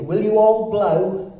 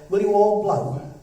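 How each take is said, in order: First: Loud, slow and drawn out; louder, slower repeat. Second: Said in the usual way. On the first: Shown as a demonstration. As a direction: ask again so the room hears. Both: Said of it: "Sorry, I didn't hear you".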